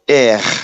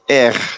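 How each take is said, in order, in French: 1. Le R se prononce à la française. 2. Le R se prononce à la française.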